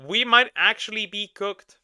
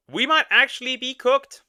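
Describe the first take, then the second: First: Said in the usual way. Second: High, loud dismayed exclaim. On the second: Real, not acted. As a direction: blurt it out in disbelief. Dismayed reaction to the clip.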